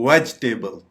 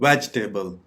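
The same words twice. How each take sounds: The two takes are said the same way.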